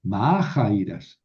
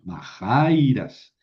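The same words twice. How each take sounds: First: "majairas" como esdrújula, con acento en MA; acento sin mover. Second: "majairas" como paroxítona, con acento en JAI; acento movido. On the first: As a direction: carga la primera sílaba de "majairas", alargándola. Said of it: "tuve que mover el acento, ya no es". ("majairas" acentuada en la antepenúltima, MA) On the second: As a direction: alarga y marca la sílaba "jai" de "majairas". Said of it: "tuve que mover el acento". ("majairas" acentuada en la penúltima, JAI) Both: Shown as a demonstration.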